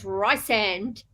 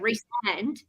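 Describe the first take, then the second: First: The first syllable sounds like 'rice'. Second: The first syllable sounds like 'Reese'. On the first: This is how the audiobook narrator says it. The speaker calls it wrong. "they say rice" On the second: This matches the character's short name. The speaker calls it right. "the short form is Reese, so it's"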